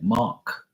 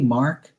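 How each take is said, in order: First: The name is said without any R sound. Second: The name is said with an audible R sound. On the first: This is how people in Bermuda say the name. "it's no R. It's like Mark" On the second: This is how people outside Bermuda say the name. "they don't say, "Hey Mark, how you doing?""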